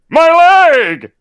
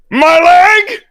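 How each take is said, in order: First: It is said in a lower Ron voice. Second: It is said in a higher voice.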